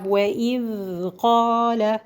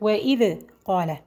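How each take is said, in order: First: The d sound flows smoothly without bouncing. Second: The d sound is cut short and bounced. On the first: The speaker calls it right. "This is the correct way I did now" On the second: The speaker calls it wrong. "The wrong way is today to, to say it like"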